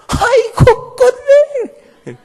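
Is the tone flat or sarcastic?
sarcastic. It is said with a mocking, sarcastic tone.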